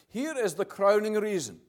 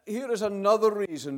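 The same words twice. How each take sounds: First: Here is the crowning reason, with crowning given full weight; stress on crowning. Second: Said in the usual way. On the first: Shown as a demonstration. Preacher correcting his wording to the congregation, weighting crowning. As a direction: lean into crowning as the better word. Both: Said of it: "I would rather say it like this".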